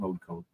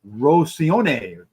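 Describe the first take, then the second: First: The name is said as two plain words. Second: The name is blended into one fancy word. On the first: The speaker calls it right. "but just plain road cone" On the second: The speaker calls it wrong. "I was thinking Rosione"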